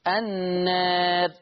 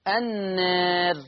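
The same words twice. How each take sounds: No difference in how they are said.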